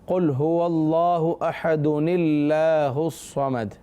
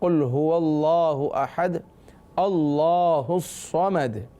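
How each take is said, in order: First: Ahad runs straight on into the next word. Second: There is a stop after ahad before continuing. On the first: "जब मिलाकर पढ़ेंगे" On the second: "जब वक्फ़ कर लेंगे"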